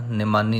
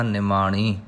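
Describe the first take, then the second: First: ਨਿਮਾਨੀ with a plain dental n; mispronounced n. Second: ਨਿਮਾਣੀ with a retroflex ṇ at the end. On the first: Teacher showing the mistake to avoid, ਨਿਮਾਨੀ with dental n. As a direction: say ਨਿਮਾਨੀ, no retroflex in the last syllable. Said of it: "ਨਹੀਂ ਕਹਿਣਾ". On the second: Teacher correcting learners, ਨਿਮਾਣੀ with retroflex ṇ. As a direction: curl the tongue for ṇ in ਨਿਮਾਣੀ. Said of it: "last ਵਿੱਚ ਨਾਣਾ ਹੈ". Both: Shown as a demonstration.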